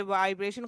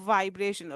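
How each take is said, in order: First: Said in the usual way. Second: वाइब्रेशन with a long buzzing 'vvv' start; vibrating V. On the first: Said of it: "खुद ही एक word". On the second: Shown as a demonstration. Teacher demonstrating lip vibration, buzzed वाइब्रेशन. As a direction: hold the lip buzz opening वाइब्रेशन. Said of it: "lips में वाइब्रेशन हो रही है".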